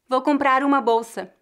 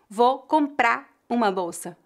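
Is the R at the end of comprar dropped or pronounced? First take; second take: pronounced; dropped. First: The R links comprar smoothly into uma. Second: The R of comprar is dropped completely. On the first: "comprar uma soam como se fossem uma palavra só" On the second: "fariam a redução fonética da letra R no lugar de ligar as palavras"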